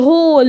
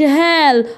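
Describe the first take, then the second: First: The vowel is a rounded 'aw' sound. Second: The vowel is an open 'ah' sound. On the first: The speaker calls it right. "انطقها او" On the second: The speaker calls it wrong. "ما اقولش"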